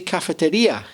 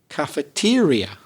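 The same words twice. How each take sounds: First: The stress is on the fourth syllable. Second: The stress is on the third syllable. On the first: This is how it is said in Spanish. "You put the stress in cafeteria on the fourth syllable" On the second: This is how it is said in English. "We put it on the third syllable"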